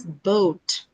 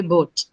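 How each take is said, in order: First: Boat with a gliding oh-oo; slow, glide boat into oo; English boat. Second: Boat with a pure o; local boat. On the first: Teacher modelling the English boat. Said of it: "the English articulation is". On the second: Teacher showing how locals say boat. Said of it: "So we say boat". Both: Shown as a demonstration.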